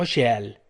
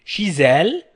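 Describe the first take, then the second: First: Chez elle without Z, "شيال"; no liaison. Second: Chez elle with a Z, "شيزال"; liaison Z. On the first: Teacher showing how some others say it, no liaison. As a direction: drop the z in شيال, shee-AL. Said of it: "وهناك من ينطق شيال". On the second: Teacher showing learners the Canadian and Belgian way, liaison Z. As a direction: link شيزال with a clear z sound, shee-ZAL. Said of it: "في كندا وفي بلجيكا ينطقون". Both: Shown as a demonstration.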